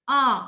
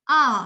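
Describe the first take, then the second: First: The vowel is said between rounded and wide. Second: The vowel is said between rounded and wide.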